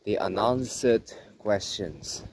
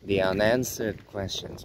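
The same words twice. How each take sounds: First: It is spoken in a British accent. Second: It is spoken in an American accent. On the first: "but in British accent" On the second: "in American accent"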